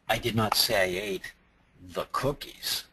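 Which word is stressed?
cookies. The word cookies is stressed. Something else was eaten instead. "I ate the brownies, but I didn't eat the cookies"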